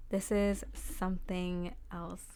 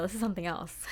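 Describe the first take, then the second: First: Slow, each word weighed, "This is something else"; slow emphatic repeat. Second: Said in the usual way. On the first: Shown as a demonstration. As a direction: let it sink in slowly: "This is something else".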